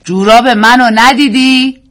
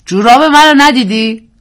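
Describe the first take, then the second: First: Asking again, slow and louder; a husband repeating his question about his socks, slowly; man repeating, slower. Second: Man asking. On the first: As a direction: repeat it slowly as the man who was ignored. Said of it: "مرد دوباره گفت". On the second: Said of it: "مردی پرسید". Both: A narrator's reading.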